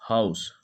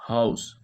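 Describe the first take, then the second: Both takes have the same delivery.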